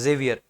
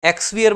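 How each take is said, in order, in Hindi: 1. यह "j" ध्वनि से शुरू होता है। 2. यह "eks" ध्वनि से शुरू होता है। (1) "ज का साउंड देता है" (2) "एक्सवियर मत पढ़ना"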